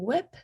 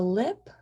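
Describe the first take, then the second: First: The word starts with a W sound. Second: The word starts with an L sound. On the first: "replacing it with a W" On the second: "instead of that L"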